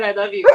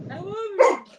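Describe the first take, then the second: First: Said in the usual way. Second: Very high, doggy "I love you"; talking dog. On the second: Retold or imitated. Owner showing what her dog said, high doggy voice. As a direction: imitate a dog's words way up high. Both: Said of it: "I swear he said".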